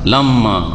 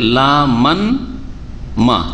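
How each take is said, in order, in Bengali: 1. m ধ্বনিগুলো মিশে একটি দীর্ঘ m হয়ে যায়। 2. n ধ্বনিটি শেষের ma-র আগে আসে। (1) "একটা মিমকে হজফ করে দেন"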